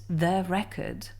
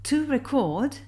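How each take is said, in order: First: Record stressed on its opening syllable; stress on first syllable. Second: Record as the verb, re-CORD, pitched higher; record stressed on its final syllable; stress on second syllable. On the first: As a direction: lean on REC in record. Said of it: "In case of record, re". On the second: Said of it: "in case of record, chord". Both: Shown as a demonstration.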